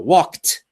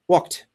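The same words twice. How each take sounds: First: The final t is said strongly and clearly. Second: The final t is quick and barely heard. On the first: "I'm exaggerating now" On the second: "if I say it quickly, it's kind of a small sound"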